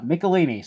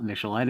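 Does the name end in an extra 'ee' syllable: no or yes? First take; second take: yes; no. First: The name ends with an extra 'ee' syllable. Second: The name ends on '-lin' with no extra syllable. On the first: The speaker calls it right. "use Wikipedia for the pronunciation, and it's uh" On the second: The speaker calls it wrong. "I always thought it was David Michelin as a kid"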